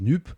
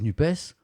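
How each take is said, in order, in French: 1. Le mot se termine sans son s. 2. Le mot se termine par un son s. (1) "un présentateur qui dise NUP" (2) "le S renvoyait à social"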